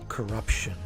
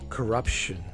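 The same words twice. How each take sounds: The two takes are said the same way.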